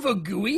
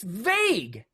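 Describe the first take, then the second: First: The ending is sounded as an extra syllable. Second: The ending is silent, making one syllable. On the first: The speaker calls it wrong. "It's not vagui" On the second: The speaker calls it right. "it's vague"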